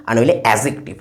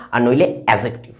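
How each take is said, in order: Both takes have the same delivery.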